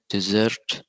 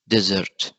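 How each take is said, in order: First: "desert" as the verb, de-SERT; stress on second syllable. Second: "desert" as the noun, DE-sert; stress on first syllable. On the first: Student showing the verb, "desert" stressed on second syllable. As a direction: put the weight on the end of "desert". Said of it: "it will be a verb". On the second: Student defining the dry place, "desert" stressed on first syllable. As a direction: punch the start of "desert", falling after. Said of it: "It's a very dry place". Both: Shown as a demonstration.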